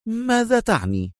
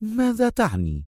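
First: High, startled question; astonished. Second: High, sharp demand; sharp question. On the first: Consul hears of the city governor's part, astonished. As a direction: ask in amazement, pitched right up. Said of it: "سأله القنصل في دهشة". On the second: Consul questions Adham about his proposal, sharp. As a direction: demand it tensely, pitched high. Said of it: "وهو يقول في حدة". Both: A narrator's reading.

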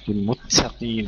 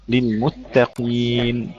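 First: للمتقين with the doubled ت breathed out; the mistake, airy ت in للمتقين; whispered double ت. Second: للمتقين slow with a firm held doubled ت; firm double ت. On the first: Teacher mimicking the student's airy ت, soft. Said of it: "هكذا بهمس التاء المشددة". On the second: Teacher giving the correct version, slow. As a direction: press the ت in للمتقين. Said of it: "التاء المشددة". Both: Shown as a demonstration.

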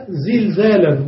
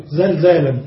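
First: زلزالا said with i after the first zay, zilzālan; kasra on first letter. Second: زلزالا said with a after the first zay, zalzālan; fatha on first letter. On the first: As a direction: say زلزالا as "zil-ZAA-lan". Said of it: "أحيانا بالكسر إذا كان مضاعفا". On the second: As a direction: say زلزالا as "zal-ZAA-lan". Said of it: "ويجوز فتح أول المضاعف". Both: Shown as a demonstration.

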